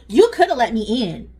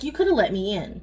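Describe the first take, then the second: First: It is said in a snippy, attitude-filled tone. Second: It is said in a calm, mild tone. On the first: This is how she probably really said it. "she probably said, ... Or like got an attitude with her" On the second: This is how the daughter claims she said it. "Maddie said she said it like that"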